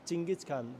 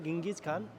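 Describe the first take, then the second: First: The first word sounds like Chingis. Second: The first word sounds like Gingis. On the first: This is another way Mongolians say the name. "Mongolia में इसको बोला जाता है" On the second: This is one way Mongolians say the name. "Mongolia में इसको बोला जाता है"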